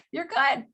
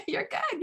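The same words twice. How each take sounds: First: Said in the usual way. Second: Much higher, light mock reassurance. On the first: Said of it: "And then he's like". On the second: Mocking doctor tells patient breezily, high. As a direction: squeak it out like a dismissive doctor. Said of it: "Or she's like".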